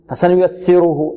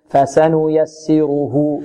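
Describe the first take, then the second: First: The vowels are rushed and clipped short. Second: Each vowel gets its full, unhurried length. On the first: The speaker calls it wrong. "البعض ربما يسرع فيها، بعض الطلاب يقول" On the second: The speaker calls it right. "لا، فسنيسره فسنيسره، نعطي الفاء الفتحة التي على الفاء نعطيها قدرها"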